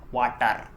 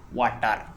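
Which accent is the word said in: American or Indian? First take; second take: Indian; Indian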